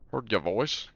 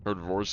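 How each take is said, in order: First: It is said in a put-on Australian accent. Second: It is said in the speaker's usual accent.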